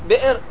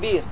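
First: A glottal stop is heard after the first consonant. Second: No glottal stop; a long vowel is heard instead.

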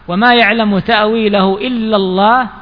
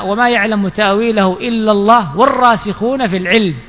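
First: The phrase stops with a pause after Allah. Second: The phrase runs on without a pause after Allah. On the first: Only God knows its interpretation. "وهنا وقف" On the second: Those firm in knowledge also know its interpretation. "وعلى الوصل في القراءة"

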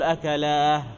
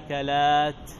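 First: The word ends with an h sound. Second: The word ends with a t sound. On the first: The speaker calls it wrong. "ما تقول أكلاه" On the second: The speaker calls it right. "إنما أكلات"

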